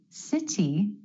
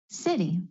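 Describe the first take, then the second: First: The middle T is a crisp, released T. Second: The middle T is a quick D-like flap.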